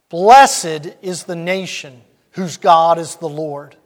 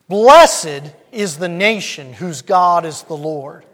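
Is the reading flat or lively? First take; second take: flat; lively. First: It is read in a plain, subdued way. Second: It is read with more energy and spirit. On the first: The speaker calls it wrong. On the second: The speaker calls it right.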